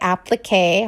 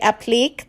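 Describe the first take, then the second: First: The word has an English-style pronunciation. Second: The word has a French-style pronunciation. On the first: The speaker calls it right. "I'm trying to say it your way" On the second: The speaker calls it wrong. "I always say applique the French way"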